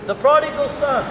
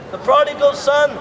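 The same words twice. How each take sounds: The two takes are said the same way.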